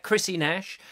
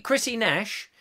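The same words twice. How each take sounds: First: Chrissy Nash run together as one pet name. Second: Chris E Nash said as three parts, Chris, then the letter E, then Nash; read as Chris E Nash. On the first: Trying the viewer's name as Chrissy Nash, run together. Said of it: "But I quite like that". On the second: Reading the viewer's username as Chris E Nash, letter by letter. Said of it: "that's not really your name, is it?". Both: Shown as a demonstration.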